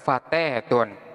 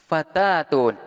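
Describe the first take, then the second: First: The long vowel is tilted toward e. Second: The long vowel is a plain open a.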